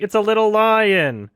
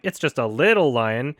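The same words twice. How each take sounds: First: High line landing hard on "lion"; stress on LION. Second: "little" picked out, "lion" left unstressed; stress on LITTLE. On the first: Retold or imitated. Imitating how Seth Rogen says it, stress on "lion". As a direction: push the pitch up and punch "lion". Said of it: "He's like". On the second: Shown as a demonstration. Showing what Seth Rogen wasn't emphasizing, stress on "little". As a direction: lean on "little" and ease off "lion". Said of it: "Seth Rogen wasn't emphasizing".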